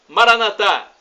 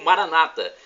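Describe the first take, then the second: First: The stress falls on the last syllable. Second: The stress falls on the second-to-last syllable. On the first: This is how Catholics say it. "como dizemos nós católicos" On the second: This is how evangelicals or Protestants say it. "com a pronúncia de, dos evangélicos ou protestantes"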